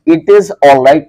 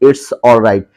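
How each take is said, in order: First: Each word is said separately, "it is." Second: "It is" is joined into one syllable, "it's." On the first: "लिखा हुआ है" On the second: "आप इसको short में क्या बोलेंगे"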